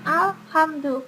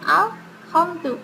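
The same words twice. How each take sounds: First: The consonant after 'al' is a soft, breathy h. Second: The consonant after 'al' is a harsh, scraping kh. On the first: This is the usual form the word should have. "bukan alhamdu" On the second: This is how the manuscript spells it. "Ini adalah aksara rekanya ho. Maka di sini adalah alhamdu"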